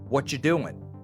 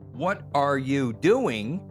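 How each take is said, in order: First: The words are linked, dropping 'are'. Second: Every word is said in full.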